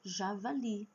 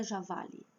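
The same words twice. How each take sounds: First: "Javali" with the final LI strong and held; stress on last syllable. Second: "javali" stressed on VA, final li weak; wrong stress on penult. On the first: Teacher corrects the mistake, "Javali" stressed on final LI. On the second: Teacher shows the mistake, "javali" stressed on VA. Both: Shown as a demonstration. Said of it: "Não é javali".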